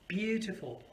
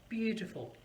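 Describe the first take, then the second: No difference in how they are said.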